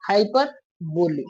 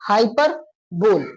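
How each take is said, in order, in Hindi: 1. इस शब्द का अंत लंबी 'boli' की आवाज़ से होता है। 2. इस शब्द का अंत सिर्फ़ 'bol' की आवाज़ से होता है। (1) "किसी ने इसका उच्चारण कर दिया हाइपर बोली" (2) "कुछ लोगों ने इसको हाइपर बोल करके उच्चारण कर दिया"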